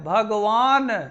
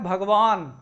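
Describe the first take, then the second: First: An extra vowel is sounded after the final n. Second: The word ends sharply on the final n consonant. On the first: The speaker calls it wrong. "यहां जो है स्वर का आगम हो रहा है" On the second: The speaker calls it right. "ना जो है वहां साइलेंट हो जाएगा, उसमें आ नहीं रहेगा"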